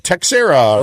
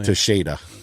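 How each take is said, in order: First: The middle consonant is a 'ks' sound. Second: The middle consonant is a 'sh' sound. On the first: The speaker calls it wrong. "Everyone else will say Texera" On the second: The speaker calls it right. "that's it's it's Tasheda"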